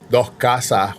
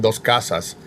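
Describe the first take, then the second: First: The syllable-final S sounds are dropped. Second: The syllable-final S sounds are fully pronounced. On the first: "they don't pronounce the S at the end of the syllable" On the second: "when they're saying dos casas"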